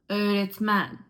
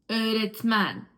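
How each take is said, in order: No difference in how they are said.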